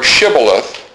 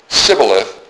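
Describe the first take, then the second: First: The word begins with an 'sh' sound. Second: The word begins with a plain 's' sound. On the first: The speaker calls it right. "if they say it correctly" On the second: The speaker calls it wrong. "They would leave the S-H out of it"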